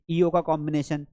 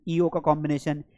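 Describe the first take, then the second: No difference in how they are said.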